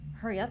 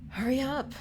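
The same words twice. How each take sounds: First: It is said in the speaker's normal voice. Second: It is said in a put-on character voice.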